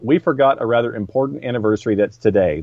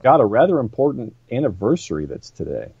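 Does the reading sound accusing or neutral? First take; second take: neutral; accusing. First: It is read in a plain, neutral tone. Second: It is read in an accusing, reproachful tone. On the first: It is simply a reminder of the date. The speaker calls it right. "that's not dripping with uh, accusation" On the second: The listeners are bad people for forgetting. The speaker calls it wrong. "you read it in a certain way to imply we're bad people"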